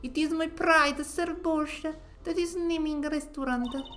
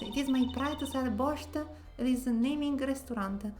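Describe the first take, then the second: First: It is spoken in a put-on Russian accent. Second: It is spoken in the speaker's own accent.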